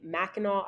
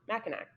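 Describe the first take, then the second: First: The word ends without a final k sound. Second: The word ends with a final k sound. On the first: The speaker calls it right. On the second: The speaker calls it wrong.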